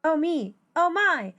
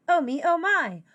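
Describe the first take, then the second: No difference in how they are said.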